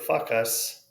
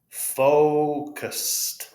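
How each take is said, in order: First: The first vowel is a short sound. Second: The first vowel is a long O sound. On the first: The speaker calls it wrong. "or fuck us" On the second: The speaker calls it right. "It's a long O"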